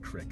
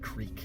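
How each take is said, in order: First: The vowel is short, rhyming with 'stick'. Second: The vowel is long, rhyming with 'week'. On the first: This is how some family members say it. "as my cousin pronounces it" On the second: This matches how the word is spelled. "it's spelled creek"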